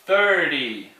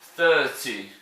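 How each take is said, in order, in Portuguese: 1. É dito com sotaque americano. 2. É dito com sotaque britânico.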